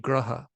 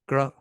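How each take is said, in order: First: The word ends with a short final vowel. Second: The final vowel is dropped, ending on a consonant. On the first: This is the Sanskrit pronunciation. The speaker calls it right. "when you say graha" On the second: This is the regional-language pronunciation. The speaker calls it wrong. "that's pronunciation is correct for that regional language, but it's not correct for Sanskrit"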